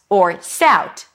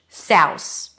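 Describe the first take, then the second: First: The word ends with a T sound. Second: The word ends with an S sound. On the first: "just a T" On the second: "or put an S instead of the final TH"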